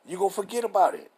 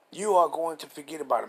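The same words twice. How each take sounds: First: Said in the usual way. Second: Firm, fully pronounced "are going to"; emphatic restatement. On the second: Real, not acted. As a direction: stress on ARE, every word spelled out.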